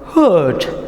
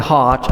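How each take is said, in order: First: The vowel is an 'er' sound. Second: The vowel is an open 'ah' sound. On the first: The speaker calls it wrong. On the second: The speaker calls it right.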